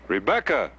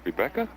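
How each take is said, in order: First: The name is said loudly and forcefully. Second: The name is said quietly and questioningly.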